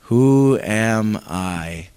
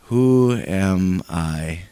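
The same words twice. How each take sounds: First: Low, slow, sinking question; downcast echo. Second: Low, slow, dejected question; downcast. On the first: Pretend. Congregation repeating Moses' doubt, low and slow. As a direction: let it drop, small and doubtful. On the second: Shown as a demonstration. Preacher showing the congregation Moses' doubt, low and slow. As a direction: say it low and defeated. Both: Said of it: "Say that".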